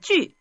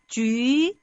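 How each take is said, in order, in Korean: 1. 음높이가 갑자기 확 떨어지며 발음합니다. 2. 음높이가 올라가면서 발음합니다. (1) "사성은 조금 더 쉬운 것 같아요" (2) "이성으로 한번 해보겠습니다"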